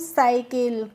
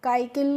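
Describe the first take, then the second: First: The word begins with an s sound. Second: The word begins with a k sound. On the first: The speaker calls it right. "इसको हम साइकिल" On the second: The speaker calls it wrong. "काइकिल नहीं पढ़ेंगे"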